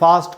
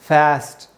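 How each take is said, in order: First: It is said in a British accent. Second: It is said in an American accent. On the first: "आ का जो sound होता है British English में" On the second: "उसको American लोग ए करके बोलते हैं"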